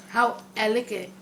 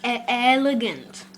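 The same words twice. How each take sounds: First: "elegant" with the final consonants blurred; mispronounced elegant. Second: "elegant" slowly, with a clear final "nt"; corrected pronunciation. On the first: Pretend. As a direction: say "elegant" loosely, swallowing its ending. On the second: Shown as a demonstration. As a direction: demonstrate "elegant" slowly, every syllable complete. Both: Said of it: "you pronounced it wrong".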